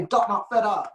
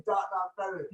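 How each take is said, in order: First: Light Trinidadian lilt, a bit higher; Trinidadian accent. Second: Said in the usual way. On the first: Retold or imitated. Quoting Adam's saying in a light Trinidadian accent. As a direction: quote the friend's accent lightly. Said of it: "And Adam used to say". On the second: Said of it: "repeats phrase laughing".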